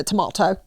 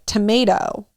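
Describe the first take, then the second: First: Tomato with a British a, ta-MAH-toh; son's British tomato. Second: Said in the usual way. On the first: Retold or imitated. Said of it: "what does he say?". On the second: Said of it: "corrected his pronunciation of basic words like tomato".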